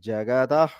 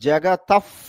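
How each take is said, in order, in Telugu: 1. చివరి పఫ్ తేలికగా, సహజంగా ఉంది. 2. చివరి f పఫ్ చాలా ఎక్కువగా ఒత్తి ఉంది. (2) "కావాలని ఫ్ అంటున్నాను మీకు అర్థం అవ్వాలని"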